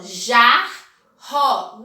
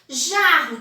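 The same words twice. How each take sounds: First: "jarro" very slowly as jar... ro; loud, separated beats on "jarro": jar, rro; split into syllables. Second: Said in the usual way. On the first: Shown as a demonstration. Teacher counting syllables for pupils, "jarro" split as jar... ro. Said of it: "Tem quantas sílabas?". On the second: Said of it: "tem quantas letras?".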